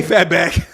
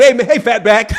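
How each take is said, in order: First: Mimicked call. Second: Lightly voiced caller greeting, half laughing; a hint of mimicking the caller; mock imitation. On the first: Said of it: "When that man said". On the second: Streamer retelling the Fatback call, lightly mimicking it. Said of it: "they said".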